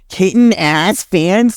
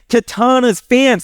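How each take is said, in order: First: The name sounds like 'kitten ass'. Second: The name sounds like 'Katana's'. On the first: The speaker calls it wrong. "what was the pronunciation?" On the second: The speaker calls it right. "It's Katana's fans"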